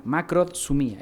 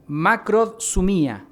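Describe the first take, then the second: First: Said in the usual way. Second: Macrodsumía said slowly, syllable by syllable; careful spelling-out. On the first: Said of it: "Macrod, con D de dedo, sumía". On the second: Shown as a demonstration. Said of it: "Se escribe con K". (macrodsumía pronunciada despacio, sílaba por sílaba)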